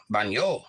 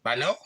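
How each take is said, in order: First: Baño with ny in the middle; Spanish ñ sound. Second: Bano with a plain n, questioning; plain N sound. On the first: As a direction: say Baño as BAHN-yo, lower. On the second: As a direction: try Bano without the ny sound. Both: Shown as a demonstration. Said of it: "I'm going baño".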